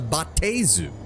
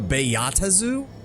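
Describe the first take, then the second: First: The first part is said as one syllable. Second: The first part is split into two syllables. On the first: "I thought the B A A was one syllable" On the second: "that's how you pronounce it?"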